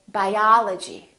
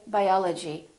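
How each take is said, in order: First: The stressed vowel is long and prolonged. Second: The stressed vowel is short and not prolonged. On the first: The speaker calls it right. "we say biology" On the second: The speaker calls it wrong. "We don't say"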